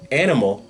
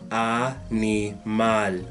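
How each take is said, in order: First: The first vowel sounds like English animal. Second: The first vowel is an open ah sound. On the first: The speaker calls it wrong. "instead of saying animal" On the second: The speaker calls it right. "you will say, repeat after me"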